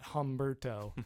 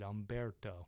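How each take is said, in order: First: The name begins with an H sound. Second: The name begins with a vowel sound. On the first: The speaker calls it wrong. "Not Humberto" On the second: The speaker calls it right. "that is how you say it"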